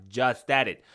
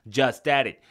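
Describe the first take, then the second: No difference in how they are said.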